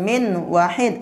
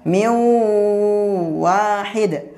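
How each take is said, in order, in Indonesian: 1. Huruf n biasa terdengar sebelum w. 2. Huruf n menyatu dengan bunyi w sengau yang ditahan. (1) "bacanya bukan min wahid" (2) "dibaca miu wahid"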